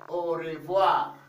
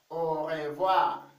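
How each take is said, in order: No difference in how they are said.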